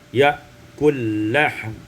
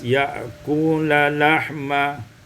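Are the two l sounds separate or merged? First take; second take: merged; separate. First: The two l sounds merge into one. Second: The two l sounds are separate.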